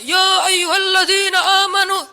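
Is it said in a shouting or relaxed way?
shouting. It is said loudly, like a shout.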